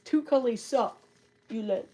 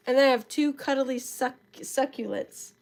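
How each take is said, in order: First: Says "Two cuddly succulents" with a laugh; a giggly retry of "Two cuddly succulents". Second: Said in the usual way. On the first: Real, not acted. Laughs at her own stumble.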